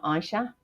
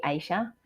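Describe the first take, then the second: First: "Aisha" said as EYE-sha; other pronunciation. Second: "Aisha" said as AY-sha; local pronunciation. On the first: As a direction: say "Aisha" with a first syllable like "eye". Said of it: "not Aisha". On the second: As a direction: say "Aisha" with a first syllable like "day". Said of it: "over here that would be Aisha". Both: Shown as a demonstration.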